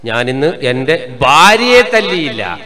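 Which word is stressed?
ഭാര്യയെ. The fourth word, ഭാര്യയെ, is stressed. Her mother and sister were beaten instead. "വാ ഓള ഉമ്മാക്കോള അനിയത്തിക്കെല്ലാം ശരിക്കും കൊടുത്തു"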